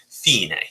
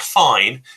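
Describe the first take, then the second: First: It is pronounced the Italian way, with Italian inflection. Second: It is pronounced like the English word fine. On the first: The speaker calls it right. "with a little Italian inflection" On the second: The speaker calls it wrong. "not fine"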